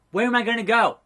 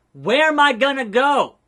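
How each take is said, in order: First: Worried question, not yet shouted; contained dismay. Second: High, loud mock-desperate wail; loud dismay. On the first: Acted. Fired wrestler asks boss, mildly dismayed. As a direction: ask it with mild mock dismay. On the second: Fired wrestler begging boss, loud dismay. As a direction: cry it out, drawing out the words. Repeats the question, escalating.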